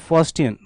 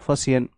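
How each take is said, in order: First: A t sound is heard inside the word. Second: No t sound is heard inside the word. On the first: The speaker calls it wrong. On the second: The speaker calls it right.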